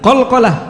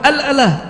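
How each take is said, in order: First: The syllables start with a hard k sound. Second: The syllables start with a vowel, no k. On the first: This is the common Arabic form. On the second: This is how Egyptians say it.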